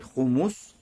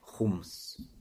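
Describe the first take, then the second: First: A vowel u follows the second consonant. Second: No vowel follows the second consonant. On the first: "можно говорить с даммой, буквы мим" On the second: "а можно говорить с сукуном"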